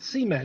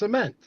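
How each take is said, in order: First: The stress is on the first syllable. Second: The stress is on the second syllable. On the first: This is how the other person's accent says it. The speaker calls it wrong. "You're calling it like S E A, cement. ... It's not cement" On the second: This is how the speaker says it. The speaker calls it right. "He wants the emphasis on mint"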